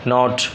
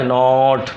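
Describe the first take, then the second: First: The vowel is light and quickly cut off. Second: The vowel is long and drawn out. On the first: The speaker calls it right. "हल्का सा है" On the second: The speaker calls it wrong. "यूँ तो नहीं बोल रहे नॉट"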